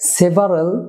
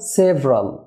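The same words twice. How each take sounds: First: The vowel before the r is pronounced. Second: The vowel before the r is dropped. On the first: The speaker calls it wrong. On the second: The speaker calls it right.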